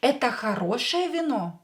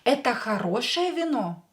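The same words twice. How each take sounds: First: It has the intonation of a question. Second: It has the intonation of a question.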